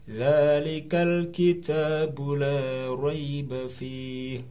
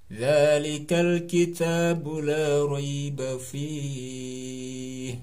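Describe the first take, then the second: The two takes are said the same way.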